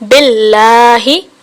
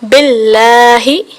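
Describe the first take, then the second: Both takes have the same delivery.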